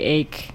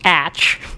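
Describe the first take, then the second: First: The word ends with a k sound. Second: The word ends with a ch sound. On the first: This is the current everyday pronunciation. "now we say ache no matter what" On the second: This is the older, original pronunciation. "if you want to be a purist, you should be pronouncing the atch"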